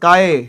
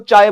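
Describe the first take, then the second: First: The word begins with a k sound. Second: The word begins with a ch sound. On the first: The speaker calls it right. "इसको बोलना है काय" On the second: The speaker calls it wrong. "कोई कोई इसको चाय बोल देता है, चाय नहीं बोलना चाहिए इसको"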